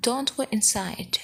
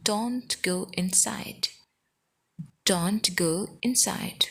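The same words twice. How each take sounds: First: Said in the usual way. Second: Stretched, careful teaching pace; slow demonstration of a short sentence; slow model repeat. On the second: Shown as a demonstration. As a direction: draw the words out for learners. Teacher repeats sentence slowly for learners.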